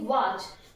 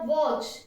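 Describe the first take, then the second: First: The vowel is an open unrounded 'ah' sound. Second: The vowel is a rounded 'aw' sound. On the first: The speaker calls it wrong. "न कि वाच" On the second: The speaker calls it right. "ऑ की sound देता है"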